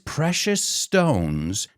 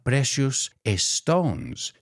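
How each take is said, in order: First: The two S sounds merge into one. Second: Each S sound is said separately. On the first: The speaker calls it right. "I put the S from precious with the S from stones" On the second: The speaker calls it wrong. "not precious stones"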